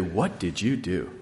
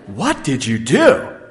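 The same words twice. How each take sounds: First: It is said in a mildly disapproving tone. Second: It is said in a sharper, accusing tone. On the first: The trouble seems minor. "in her disapproving voice" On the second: The trouble seems serious. "she gets a bit more accusatory"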